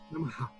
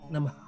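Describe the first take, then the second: First: The final h is a strong throaty sound. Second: The final h is a faint breath echo. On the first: The speaker calls it wrong. "não existe a, a pronúncia Namaha" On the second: The speaker calls it right. "é bem, bem suave. Ele não é uma aspiração, não é na garganta"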